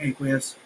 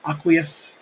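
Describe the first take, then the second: First: The first syllable does not sound like 'aqua'. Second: The first syllable sounds like the start of 'aqua'. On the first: This is the speaker's habitual pronunciation. "but I always say aqueous" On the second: The pronunciation follows the word's origin. "pronunciation is because it's derived from aqua"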